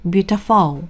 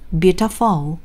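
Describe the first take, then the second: First: The stress is on the third syllable. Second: The stress is on the third syllable.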